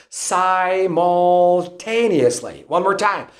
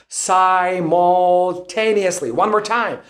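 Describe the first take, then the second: No difference in how they are said.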